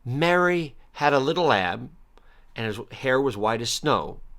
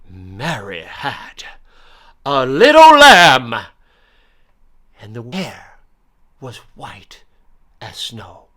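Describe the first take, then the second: First: It is said plainly, without flourish. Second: It is said eloquently, with dramatic flourish.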